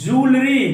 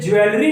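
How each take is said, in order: First: The word begins with a 'joo' sound. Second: The word begins with a 'jwel' sound. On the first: The speaker calls it right. "ये है जूलरी" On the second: The speaker calls it wrong. "ये ज्वेलरी नहीं है"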